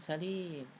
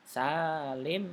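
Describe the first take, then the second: First: The first vowel is kept short. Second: The first vowel is held long. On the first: It means safe or healthy, not a person. The speaker calls it wrong. "bukan Salim" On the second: It refers to a person. The speaker calls it right. "sa-nya yang panjang"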